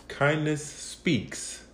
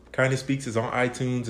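First: "Kindness Speaks" said very slowly, stretched out; slow, stressed title. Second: Said in the usual way. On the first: Shown as a demonstration.

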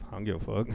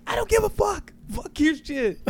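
First: Soft, offhand imitation of a partner; indifferent reply. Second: Very high, strained imitation of a partner; mock angry outburst. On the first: Partner shrugging off the pay-per-view purchase, soft indifferent reply. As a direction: toss it off quietly, couldn't care less. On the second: Partner sick of wrestling news, high mock-angry outburst. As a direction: shriek it in mock fury, without real volume.

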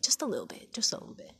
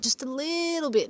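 First: Tiny whisper, as an aside; hushed, secretive whisper; whispered confession. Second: LITTLE stretched out high; high, lingering emphasis on little; stress on little. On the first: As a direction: whisper it like a small admission. Confessing slight neglect under breath. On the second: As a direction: draw out "little" on a high pitch. Playfully admitting neglected studies. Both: Real, not acted.

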